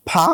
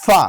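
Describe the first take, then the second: First: ফা with both lips closing, like Bengali ফ; wrong bilabial ফা, lips pressed together; ফা said with both lips, not teeth on lip. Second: ফা as a clean English f sound; correct ফা. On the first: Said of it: "আমরা ফা বললে হবে না". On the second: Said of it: "আমাদের বলতে হবে". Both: Shown as a demonstration.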